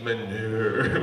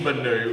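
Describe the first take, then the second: First: Manu drawn out long and low; swooning French pronunciation. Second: Said in the usual way. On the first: Shown as a demonstration. Comic showing how wife says chef's name, swooning Manu. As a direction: linger suggestively on "Manu". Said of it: "You say it like Manu".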